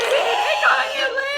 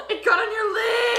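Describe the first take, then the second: First: Higher, louder, slower wailing cry; panicked wail. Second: High, loud panicked cry; panicked shriek. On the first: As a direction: wail it out in dismay. Eyeliner smudge panic, repeated. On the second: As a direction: shriek it in alarm. Eyeliner smudge panic. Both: Real, not acted.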